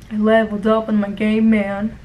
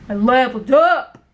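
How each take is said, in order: First: Lightly voiced, low gamer brag; imitating dull coworker. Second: Punchy mock boast rising on "up"; mocking coworker's brag. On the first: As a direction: mimic a boring coworker, pitched a touch down. Mimicking the boring coworker's brag. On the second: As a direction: mimic his boast, hitting "up" harder. Coworker's brag repeated, mocking, louder.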